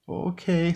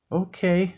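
First: High, little mouse squeak of assent; meek. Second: Small, high mouse voice; meek. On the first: Mouse agreeing to Gus's orders, meek. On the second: Mouse giving in to roaring Gus, meek. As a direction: give in meekly, pitched well up. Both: A narrator's reading. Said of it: "said Mouse meekly".

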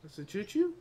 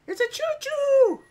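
First: Softer question rising on "choo-choo"; hesitant, questioning repeat; doubtful question. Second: Very high squeal of delight; childlike excited squeal. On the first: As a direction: ask it quietly, unsure, lifting the end. Same words, now as question. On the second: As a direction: squeal it like an excited little kid. Spots train, childlike squeal. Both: Pretend.

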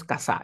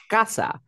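First: "casa" wrongly said ca-SÁ; misplaced final stress. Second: "casa" as CA-sa, first syllable high; stress on first syllable. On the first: Teacher shows what nobody says, "casa" stressed on SA. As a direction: throw the stress onto the last syllable of "casa". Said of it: "tú no dices casa". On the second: Teacher gives the Spanish example, "casa" stressed on CA. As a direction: punch the CA of "casa". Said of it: "es la sílaba tónica como en español". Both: Shown as a demonstration.

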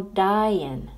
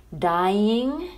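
First: "dying" said as "dyin'", ending in a plain n; dropped G. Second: "Dying" with the final G sounded, /dajɪŋ/; full -ing ending. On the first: Teacher shows the casual "dyin'" with no G. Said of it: "se pronuncia como". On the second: Teacher models "Dying" with the full -ng ending. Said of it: "pero cuando no se pronuncia G". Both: Shown as a demonstration.

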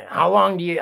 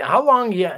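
First: Said in the usual way. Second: "how long do you" pushed higher and louder; pressing restart. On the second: Real, not acted. Challenging the prepper viewers, he repeats it more forcefully. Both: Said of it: "how long do you think your luck".

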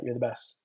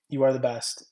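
First: Said in the usual way. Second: "You are the best" with weight on "are"; stress on ARE. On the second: Shown as a demonstration. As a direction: land on "are" to mean it.

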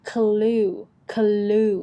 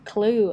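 First: "clue" split into "kuh-loo", long vowel; separated L sound. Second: "clue" as one syllable, k and l joined; joined cluster. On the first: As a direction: sound out the L in "clue" as its own syllable. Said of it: "ให้แยกเสียงกันไปก่อน". (แยกเสียง clue เป็น เคอะ-ลู) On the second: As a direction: blend "clue" into a single long-vowel word. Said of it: "ยันคางต่อกัน มันจะได้เอง". (ควบเสียง clue เป็นพยางค์เดียว) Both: Shown as a demonstration.

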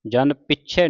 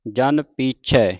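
First: ਪਿੱਛੇ with short i and doubled ਛ; quick everyday ਪਿੱਛੇ; wrong short vowel. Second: ਪੀਛੈ with a long drawn ee after ਪ; slow ਜਨ ਪੀਛੈ, lengthened first vowel. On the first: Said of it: "ਨਹੀਂ ਪੜ੍ਹਨਾ". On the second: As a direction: hold the ee in ਪੀਛੈ. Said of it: "ਇੱਥੇ ਬਿਹਾਰੀ ਲੱਗੀ ਪੱਪੇ ਨੂੰ". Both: Shown as a demonstration.

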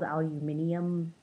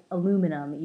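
First: Aluminium with an extra "i", ending "-ee-um"; non-American pronunciation. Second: Aluminum as "a-LOO-mi-num", four syllables; American pronunciation. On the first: Vlogger showing what Americans don't say, aluminium ending in -ee-um. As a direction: say aluminium as "al-yoo-MIN-ee-um". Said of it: "We, we don't say that". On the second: Vlogger showing how America says it, aluminum as a-LOO-mi-num. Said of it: "in America, we say". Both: Shown as a demonstration.

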